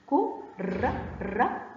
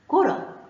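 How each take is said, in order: First: كرة split slowly into "ku... ra"; very slow, syllable-by-syllable كرة; sounded out. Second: Said in the usual way. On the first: Shown as a demonstration. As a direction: break كرة into two syllables with a pause between. Teacher sounds the word out.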